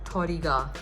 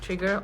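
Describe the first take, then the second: First: It is said with a Japanese pronunciation. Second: It is said with an English pronunciation.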